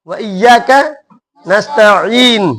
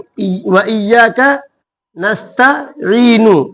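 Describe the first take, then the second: First: The last word ends on a bare n sound. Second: The last word ends with a short u vowel. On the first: The reciter stops at the end of the verse. "हमको यहाँ सांस तोड़ना है।" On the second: The reading continues without stopping. "तो अब यहाँ पर क्या है?"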